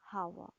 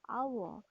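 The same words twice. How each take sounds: First: The word starts with an h sound. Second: The word starts without an h sound. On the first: The speaker calls it wrong. "not as hour" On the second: The speaker calls it right. "the h at the beginning of hour is silent. So we pronounce it as hour"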